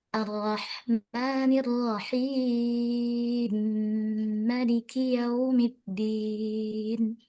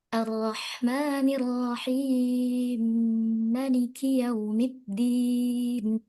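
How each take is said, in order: First: The lengthened vowel is held medium length. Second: The lengthened vowel is held short. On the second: "بقصره"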